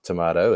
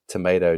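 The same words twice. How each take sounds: First: The word is said with a New Zealand accent. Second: The word is said with an American accent. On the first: "not tomato" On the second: "we use North American terms now, and I say tomato"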